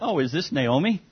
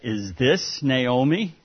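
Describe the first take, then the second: First: It sounds friendly and pleasantly surprised. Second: It sounds scornful and disapproving.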